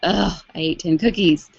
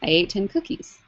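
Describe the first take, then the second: First: It is said in a disgusted, judging tone. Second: It is said in a neutral, factual tone.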